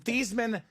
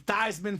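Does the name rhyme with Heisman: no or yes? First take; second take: no; yes. First: The name does not rhyme with Heisman. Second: The name rhymes with Heisman. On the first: This is the family's original way of saying the name. "change your last name from Thiesman" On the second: The name was changed to match the trophy. "so it can be Theismann for the Heisman"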